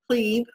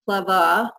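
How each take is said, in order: First: It is said like English 'cleave', American-style. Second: It ends with an 'ay' vowel sound, German-style.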